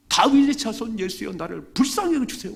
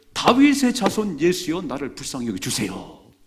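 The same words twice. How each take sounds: First: High, loud desperate cry; louder cry. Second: Crying out. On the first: Blind man shouting louder over the crowd to Jesus. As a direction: scream it out even louder. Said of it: "더 크게 소리했어요". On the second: Blind man crying out to Jesus, loud plea. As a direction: cry out desperately for mercy. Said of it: "막 소리를 지르는데". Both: Acted.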